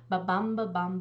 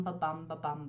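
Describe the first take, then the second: First: Ba-bum, ba-bum with the stress on bum, chanted a bit louder; strong start of the chanted meter; iambic beat. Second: Ba-bum, ba-bum fading and softer, stress still on bum; trailing chant of the meter; softer iambic beat. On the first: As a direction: tap out ba-bum, ba-bum like a heartbeat. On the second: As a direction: let ba-bum, ba-bum die away. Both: Shown as a demonstration. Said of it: "you get five ba-bums".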